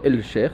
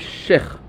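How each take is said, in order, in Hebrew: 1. נשמע L ברור לפני sheikh. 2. לא נשמע L; צליל ה-sh מוכפל. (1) "לא אל שייח" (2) "לא מבטאים את הלמד, ושמים דגש במקום הלמד"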